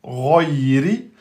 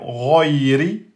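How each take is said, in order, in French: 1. La première voyelle est sombre et fortement emphatique. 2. La première voyelle est sombre et fortement emphatique.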